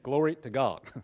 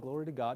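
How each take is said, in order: First: It sounds heartfelt and sincerely meant. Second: It sounds offhand and merely religious.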